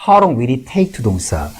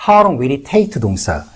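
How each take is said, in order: No difference in how they are said.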